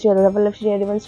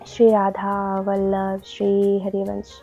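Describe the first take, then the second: First: The phrase is said quickly, without lingering. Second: The phrase is said slowly, word by word. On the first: It is said just for the sake of saying it. The speaker calls it wrong. "ऐसा नहीं कि बोलने के लिए बोल रहे" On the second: Each word is felt from within. The speaker calls it right. "धीरे धीरे बोलना है, एक एक वर्ड को हमें फील करते हुए"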